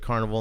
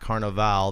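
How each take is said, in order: First: The word has a plain English pronunciation. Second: The word has a Brazilian Portuguese pronunciation. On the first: A creepy circus fair is meant. "Notice I said carnival" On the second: A festive Brazilian party is meant. "not carnival. This is not Brazil and it's not a party"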